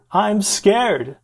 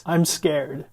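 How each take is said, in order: First: High, loud retold panic; mock scared yell. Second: Retold fear, only slightly raised; mildly acted scared patient. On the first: Distressed patient to his friend in the ER, louder scared yell. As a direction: imitate a frightened patient yelling over his friend. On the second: Distressed patient to his friend in the ER, mildly scared. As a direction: voice a scared patient, still restrained. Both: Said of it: "this poor guy is yelling".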